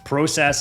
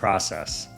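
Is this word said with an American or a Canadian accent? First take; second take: Canadian; American. First: It is said with a Canadian accent. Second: It is said with an American accent. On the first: "then process instead of process" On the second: "instead of process"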